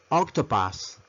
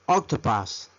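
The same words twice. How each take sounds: The two takes are said the same way.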